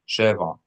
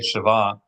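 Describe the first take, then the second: First: The stress is on the first syllable. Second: The stress is on the second syllable. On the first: It means seven. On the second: It means something that is equal.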